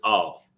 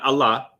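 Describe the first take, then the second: First: The ah and la merge into one syllable. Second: The ah and la are said as two syllables. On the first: The speaker calls it right. "That ah and la sound comes together and makes all" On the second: The speaker calls it wrong. "It's not Allah"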